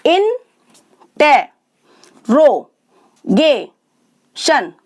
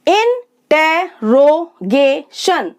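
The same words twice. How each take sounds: First: interrogation very slow, long pause after each syllable; widely separated syllables. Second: interrogation in five slow beats with short gaps; syllable by syllable. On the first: Teacher letting learners count, interrogation with very long gaps between syllables. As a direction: stretch interrogation into five isolated beats. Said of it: "शब्द को तोड़कर sound change". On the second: Teacher introducing five-syllable words, interrogation slowly broken up. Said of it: "five sounds होंगी". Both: Shown as a demonstration.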